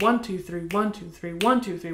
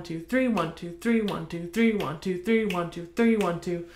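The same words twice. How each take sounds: First: "one" weighted, the "three" left hanging; counting ending on three. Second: "three" leaned on so it drives into "one"; three leads to one. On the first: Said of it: "So if you think, instead of". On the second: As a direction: let each "three" push forward into "one". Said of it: "thinking one". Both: Shown as a demonstration.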